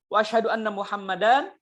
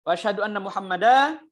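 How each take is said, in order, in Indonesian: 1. Tidak ada suku kata yang dipanjangkan lebih dari biasanya. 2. Suku kata terakhir 'dan' dipanjangkan.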